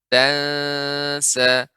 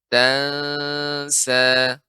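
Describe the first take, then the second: No difference in how they are said.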